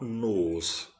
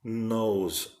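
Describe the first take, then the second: First: Nose said flat and slow as noz; drawn-out flat nose without the glide; wrong nose. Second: Nose gliding from small O into U; right nose. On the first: Teacher shows a class the wrong nose. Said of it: "It's not nose". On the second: Teacher shows a class the right nose. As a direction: say nose as nouz. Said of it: "It is nose". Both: Shown as a demonstration.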